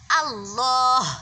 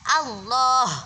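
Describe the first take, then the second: First: The first vowel is a fully open a. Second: The first vowel is a fully open a.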